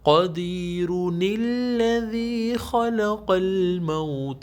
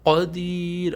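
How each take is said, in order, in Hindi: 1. शब्द -uni के साथ अगले शब्द में आगे बढ़ जाता है। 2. शब्द एक साधारण अंतिम र पर रुक जाता है। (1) "अगर स्टॉप नहीं करेंगे" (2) "अगर आप स्टॉप करेंगे"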